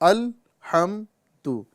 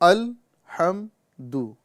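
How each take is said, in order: The two takes are said the same way.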